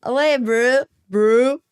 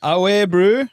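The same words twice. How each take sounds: First: Put-on copycat South African accent; South African imitation, rising at the end; imitating South African slang. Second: Higher, rising South African slang; rising South African greeting; South African accent demo. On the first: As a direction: echo a South African greeting. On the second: Shown as a demonstration. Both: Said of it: "try an easier one".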